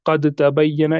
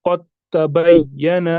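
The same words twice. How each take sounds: First: "क़द तबय्यना" with the द sounded separately; quicker "क़द तबय्यना" with an audible d before t; wrong pronunciation. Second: Slow "तबय्यन" joined straight onto क़, dal silent; drawn-out recitation of "क़द तबय्यन" as "qat-tabayyana"; merged pronunciation. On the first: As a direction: say "क़द तबय्यना" as "qad-tabayyana", unmerged. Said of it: "ये गलत है". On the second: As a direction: read "क़द तबय्यन" slowly, skipping the द into a doubled t. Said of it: "हम इसको कैसे पढ़ेंगे". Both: Shown as a demonstration.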